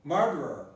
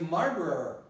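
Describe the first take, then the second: First: The word is said shortened, syllables run together. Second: The same.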